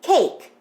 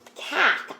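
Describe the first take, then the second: First: The vowel is a long A sound. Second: The vowel is a short A sound. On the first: The speaker calls it right. "to a long A" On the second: The speaker calls it wrong. "flip the vowel sound from a short A"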